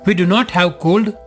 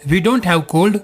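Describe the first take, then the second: First: "Do not" is said as two full words. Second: "Do not" is contracted into one syllable.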